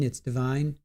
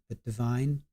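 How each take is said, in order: First: "divine" said di-VINE with a long eye; correcting the name to "divine"; divine as in holy. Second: "divine" with VINE like wine; settling the name "divine"; correct name. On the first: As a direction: stress the second syllable, rhyme it with wine. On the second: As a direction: land on the second syllable. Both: Shown as a demonstration.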